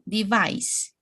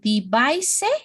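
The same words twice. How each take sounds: First: The word ends without any extra vowel sound. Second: An extra vowel sound is added at the end. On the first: The speaker calls it right. "No, device" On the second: The speaker calls it wrong. "I also listened some words, for example"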